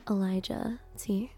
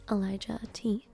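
No difference in how they are said.

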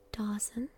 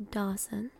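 The two takes are said the same way.

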